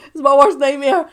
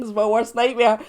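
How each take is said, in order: First: "worst" hit hard and loud; louder, stress on worst. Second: Said in the usual way. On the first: Acted. Vlogger overplaying her dread, "worst" much louder. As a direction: punch "worst" in "It's my worst nightmare". Repeats phrase, second time bigger.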